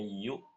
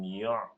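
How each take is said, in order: First: The syllable is plain, with no throaty catch. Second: The syllable has a throaty catch in it. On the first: The speaker calls it right. "Jadi bacanya yu" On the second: The speaker calls it wrong. "bukan yu'"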